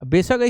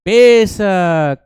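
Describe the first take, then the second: First: The word is said short and quick. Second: The word is said slowly, stretched long. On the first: The speaker calls it wrong. "ऐसे नहीं" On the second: The speaker calls it right. "हाँ, लंबा खींच के"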